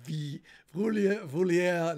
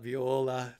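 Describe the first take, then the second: First: It is said as vi-vulia. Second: It is said as viola. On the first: "not Vi Vulia" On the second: "not Viola"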